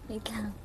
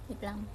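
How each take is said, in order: No difference in how they are said.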